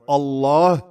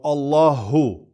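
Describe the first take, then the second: First: The word ends without a final vowel. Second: The word ends with a final u vowel.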